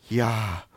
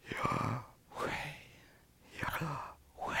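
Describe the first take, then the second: First: Said in the usual way. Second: "Yahweh" as pure breath, no voice, much softer; breathed name. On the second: Shown as a demonstration. Preacher demonstrating the name as breathing, breathed whisper. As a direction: exhale "Yahweh" like a long breath in and out. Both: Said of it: "Sounds something like this".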